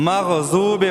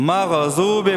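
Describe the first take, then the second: First: مغضوب with ض said as a rounded ضواد; wrong ضاد demo. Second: مغضوب with the غ shaken; wobbled غین. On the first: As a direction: mispronounce مغضوب with a w-like ض. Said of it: "ضاد کی جگہ ضواد پڑھتے ہیں". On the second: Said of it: "غین کو ہلاتے ہیں". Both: Shown as a demonstration.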